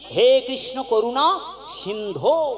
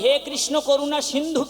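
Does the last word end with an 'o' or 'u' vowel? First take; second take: o; u. First: The last word ends with an 'o' vowel. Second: The last word ends with a 'u' vowel. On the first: The speaker calls it right. "দন্তান্বয় ধয় ওকার, এটা হলো সম্বোধন পদ" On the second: The speaker calls it wrong. "কখনোই হে কৃষ্ণ করুণা সিন্ধু কিন্তু নয়"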